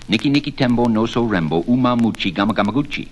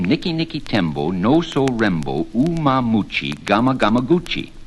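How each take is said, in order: First: The name is said very fast. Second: The name is said at an ordinary, slower pace.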